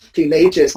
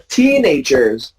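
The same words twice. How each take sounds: First: Put-on teenagers mis-stressed as teen-AY-jers, pitched lower; rejected teen-AY-jers; wrongly stressed second syllable. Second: Put-on Teenagers slow and low, TEEN-ay-jers; corrected TEEN-agers; stress on first syllable. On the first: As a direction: hit AGE in teenagers. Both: Shown as a demonstration.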